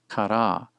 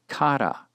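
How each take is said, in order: First: The stress is on the last syllable. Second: The stress is on the first syllable. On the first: "Typically it should be accented on the final syllable" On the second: "instead you'll find it accented on the first syllable"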